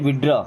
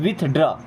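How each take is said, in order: First: The middle 'th' sound is left out. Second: The middle 'th' sound is clearly pronounced. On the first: The speaker calls it right. "देखिए short में कैसे पढ़ते हैं?" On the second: The speaker calls it wrong. "No, यहाँ पे टीएच दोनों silent है।"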